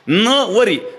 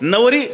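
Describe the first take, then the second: First: The first syllable is stressed and set apart. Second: The word is said plainly, without special stress. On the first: She will not take him as husband. "नवर जोर दिला" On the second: She is the bride. "नवरी सरळ"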